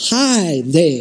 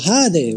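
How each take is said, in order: First: It is said slowly with careful articulation. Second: It is said at an ordinary speed.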